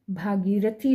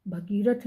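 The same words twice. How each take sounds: First: भागीरथी with a long आ in भा; correct long vowel. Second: भगीरथ with a short अ in भ; wrong short vowel. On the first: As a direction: stretch the first vowel of भागीरथी. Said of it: "भागीरथी होता है". (भागीरथी में 'भा' लंबा बोलें) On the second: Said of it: "भगीरथ नहीं". (भगीरथ में 'भ' छोटा बोलें) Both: Shown as a demonstration.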